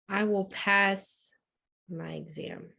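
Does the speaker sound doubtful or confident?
doubtful. It is said with little conviction.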